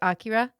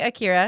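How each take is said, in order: First: The first vowel is a full, open 'ah'. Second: The first vowel is a reduced, weak sound. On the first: This is the original, technically correct way of saying it. "the technical pronunciation is Akira. ... It's like it's an A H at the beginning" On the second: This is the common Western way of saying it. "that's like the Western version"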